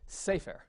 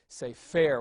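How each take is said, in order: First: The stress is on the first syllable. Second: The stress is on the last syllable. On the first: "the accent's going to be on the next to last syllable" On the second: "you know the accent would be on the last syllable"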